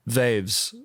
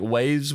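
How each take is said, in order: First: It is said with a V sound, Ukrainian-style. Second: It is said with a W sound.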